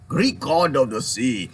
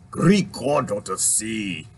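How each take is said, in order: First: Slow mock Irish accent again, lightly put on; a hint of Irish lilt, drawn out. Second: Slow, low mock Irish accent; lightly put-on Irish accent, drawn out. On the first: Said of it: "Was that an Irish one?". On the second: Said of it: "I'm gonna tap into my Irish".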